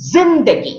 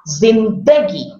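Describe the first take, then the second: First: The stress is on the first syllable. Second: The stress is on the second syllable. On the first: "stress on the first syllable" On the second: "stress on the second part"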